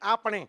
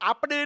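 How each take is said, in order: First: The middle consonant is an n sound. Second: The middle consonant is a d sound. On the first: The speaker calls it right. "નહીં આપણે" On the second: The speaker calls it wrong. "આપડે નહીં"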